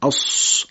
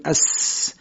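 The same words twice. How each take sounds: First: اس slowed and thick, tongue hollowed like a spoon; اس درشت; heavy emphatic s. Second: اس with tongue sides open, light hiss; a plain thin اس; اس نازک; thin s sound. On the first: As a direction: drag out a dark heavy اس for صاد. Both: Shown as a demonstration.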